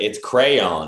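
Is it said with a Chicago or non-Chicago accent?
non-Chicago. It is said without a Chicago accent.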